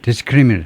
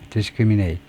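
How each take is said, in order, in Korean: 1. 마지막 음절은 약하게 줄어든 모음입니다. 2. 마지막 음절은 완전한 'eight' 소리입니다. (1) "형용사면 ... 반모음으로 discriminate 합니다" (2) "맨 뒤에가 eight이라고 발음해요"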